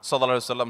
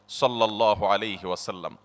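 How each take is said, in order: First: It is rattled off quickly and carelessly. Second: It is said slowly with loving warmth.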